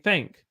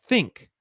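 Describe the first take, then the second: First: "think" with eh for the i; "think" with its vowel opened to eh; Southern think. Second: Said in the usual way. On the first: Shown as a demonstration. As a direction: say "think" like "thenk". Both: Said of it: "We say think".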